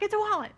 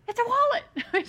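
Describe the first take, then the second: First: High, loud mock-child shout of the secret; playful imitation of an eager kid spoiling the gift; excited blurt. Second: Put-on high, loud little-kid squeal blurting the secret; imitating a thrilled little girl spilling the gift; excited child's blurt. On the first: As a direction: blurt it out like the family joke. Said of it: "So, I mean". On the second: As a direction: burst out the surprise like an overexcited toddler. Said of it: "She was just so excited".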